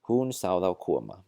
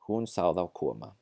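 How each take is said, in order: No difference in how they are said.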